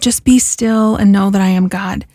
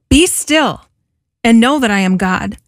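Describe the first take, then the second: First: It is said in a calm, tranquil tone. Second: It is said in a forceful, commanding tone.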